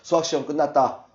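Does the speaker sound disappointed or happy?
happy. The voice sounds cheerful and pleased. The test went well. "건모는 야 수학시험 끝났다. 어허허허"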